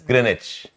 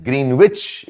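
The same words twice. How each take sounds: First: The word is said with the w silent. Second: The word is said as spelled, w sounded. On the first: This is how the word is actually pronounced. The speaker calls it right. "you pronounce as Greenwich" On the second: This is how the word is written. The speaker calls it wrong. "you write as Greenwich"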